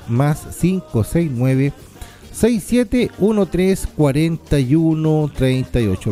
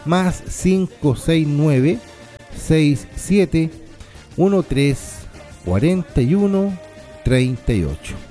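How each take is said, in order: First: It is said at a normal speed. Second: It is said more slowly.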